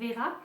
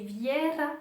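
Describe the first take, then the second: First: The vowel is a plain 'e': 'Vera'. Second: A 'y' glide comes before the vowel: 'Vyera'. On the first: The speaker calls it wrong. "et non pas Vera" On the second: The speaker calls it right. "il faut le prononcer Viera"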